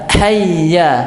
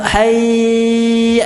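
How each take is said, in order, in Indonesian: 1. Kata hayya diucapkan cepat tanpa nada yang ditahan. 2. Kata hayya dipanjangkan dengan nada yang ditahan. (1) "Yang benar tidak diiramakan, Pak. Cepat dia" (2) "Itu bacaan yang sah, salah, pengucapan yang salah"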